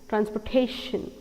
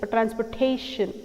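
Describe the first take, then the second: Both takes have the same delivery.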